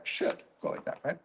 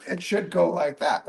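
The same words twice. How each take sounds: First: The same words dropped to a soft whisper. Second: Said in the usual way. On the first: Shown as a demonstration. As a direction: breathe it out, almost to yourself. Repeats the phrase, now whispered.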